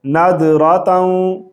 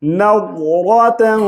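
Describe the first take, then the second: First: नादरातन with a plain द sound; common mistake. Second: नज़रतन with a thick, heavy ज़; heavy letter. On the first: Teacher showing the wrong way, नादरातन with a द. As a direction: say नादरातन, the د instead of heavy ظ. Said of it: "अमूमी लोग इस तरह पढ़ते हैं". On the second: Teacher correcting students, नज़रतन with a heavy ज़. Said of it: "वाद को मोटी आवाज़ से पढ़ेंगे". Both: Shown as a demonstration.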